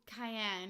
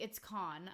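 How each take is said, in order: First: The name is said with English-style sounds. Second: The name is said with French-style sounds. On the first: The speaker calls it wrong. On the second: The speaker calls it right.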